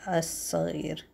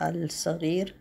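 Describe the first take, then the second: First: الصغير as "as-saghir", the l swallowed into a doubled s; الصغير with the l sound dropped into the s; assimilated al. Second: الصغير with a full clear l, "al-saghir"; الصغير pronounced "al-saghir", the wrong way. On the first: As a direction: say الصغير with no l, "assaghir". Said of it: "When after al is an S sound". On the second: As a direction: say الصغير with the l spoken, "al-saghir", as the error. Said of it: "You don't say". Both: Shown as a demonstration.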